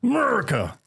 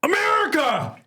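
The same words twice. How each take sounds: First: Mock patriotic call. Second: Very high, loud call from far off; distant patriotic yell. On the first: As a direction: belt it like a cheer. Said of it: "And I go". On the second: Retold or imitated. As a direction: holler it across the store. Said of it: "some dude goes".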